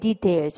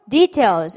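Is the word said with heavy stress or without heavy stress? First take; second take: without; heavy stress. First: The word is said without heavy added stress. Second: The word is said with heavy added stress. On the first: The speaker calls it right. "details 이렇게 강세가 없어요" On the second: The speaker calls it wrong. "약간 details라고 강세를 넣어서 발음했는데"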